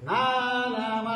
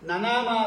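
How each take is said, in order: First: The first vowel is said long. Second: The first vowel is said short. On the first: The speaker calls it right. "ನಾನಾಮ ಅನ್ನತ್ತೆ ವೇದ" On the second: The speaker calls it wrong. "ನನಾಮ ಅಲ್ಲ ಅದು"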